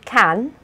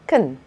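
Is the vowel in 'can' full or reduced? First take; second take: full; reduced. First: The vowel in 'can' is a full, open 'a' sound. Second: The vowel in 'can' is a weak, reduced schwa sound. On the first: "instead of can" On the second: "Sometimes the A in can is pronounced with a schwa instead"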